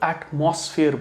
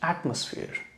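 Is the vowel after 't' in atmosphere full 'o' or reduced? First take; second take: full; reduced. First: The middle vowel is a full 'o' sound. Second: The middle vowel is reduced, not a full 'o'. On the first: The speaker calls it wrong. "इसको कई लोग एटमॉस्फेयर बोलते हैं" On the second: The speaker calls it right. "यह है एटमॉस्फेयर"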